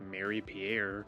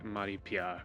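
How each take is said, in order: First: The name is said with an English pronunciation. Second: The name is said with a French pronunciation. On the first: The speaker calls it wrong. "instead of saying" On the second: The speaker calls it right. "I would say"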